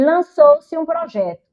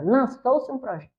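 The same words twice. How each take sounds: First: Higher, louder and slow, stressing Lançou-se; pointed demo sentence. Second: Said in the usual way. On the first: Shown as a demonstration. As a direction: put weight on "Lançou-se", said slowly. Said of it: "E eu posso dizer assim também". ("Lançou-se" dito alto e devagar) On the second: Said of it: "Quero nem citar o nome dele".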